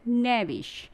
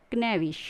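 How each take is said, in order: First: "नेविश" starting straight on N; silent K. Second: "क्नेविश" with K before N; K wrongly sounded. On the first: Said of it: "right pronunciation में हम क्या पढ़ेंगे". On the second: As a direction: open "क्नेविश" on an audible K. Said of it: "ये हो जाएगा आपका wrong". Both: Shown as a demonstration.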